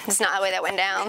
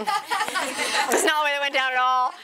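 First: Said in the usual way. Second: Slower, laughing through the words. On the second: Real, not acted. Laughing admission to her listeners. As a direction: stretch out "not" with a laugh.

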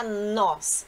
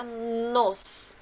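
First: "nós" with an open O. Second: "nos" with a closed, rounded O. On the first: Teacher contrasting two pronouns, "nós" with open O. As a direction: say "nós" as the subject pronoun, vowel wide open. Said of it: "se refere a nos". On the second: Teacher showing the object pronoun, "nos" with closed O. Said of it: "Que seria o pronome oblíquo". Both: Shown as a demonstration.

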